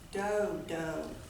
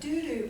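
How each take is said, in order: First: Both syllables have a long O vowel. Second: Both syllables have an oo vowel. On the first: The speaker calls it right. "with a long O sound" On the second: The speaker calls it wrong. "I called it a doo-doo bird"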